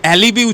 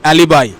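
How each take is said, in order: First: The last syllable sounds like 'bee'. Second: The last syllable sounds like 'buy'. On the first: The speaker calls it wrong. "উচ্চারণ যেই করে দিলে সাথে সাথে ভুল হয়ে গেল" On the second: The speaker calls it right. "এটার সঠিক উচ্চারণ হচ্ছে অ্যালিবাই"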